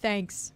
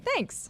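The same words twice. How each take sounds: First: It is said flatly, without excitement. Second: It is said excitedly, with emphatic energy.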